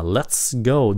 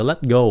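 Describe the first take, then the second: First: LET'S GO with a hissed S in LET'S; audible S. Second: LET'S GO wrongly said as LET GO; missing S. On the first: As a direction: keep the hiss before GO in LET'S GO. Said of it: "Cái câu này các bạn đừng có quên xì". ("let's go" nhớ xì chữ S) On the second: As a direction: drop the hiss, as in LET GO. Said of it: "Đừng có let go". (đọc sai "let go", quên xì) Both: Shown as a demonstration.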